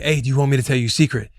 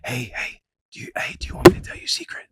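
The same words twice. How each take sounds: First: Said in the usual way. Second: Fast hushed whisper. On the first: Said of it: "Be like". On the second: Retold or imitated. Calming a toddler who is spazzing out, fast whisper. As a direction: coax her with a quick whisper. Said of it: "like whispering to them".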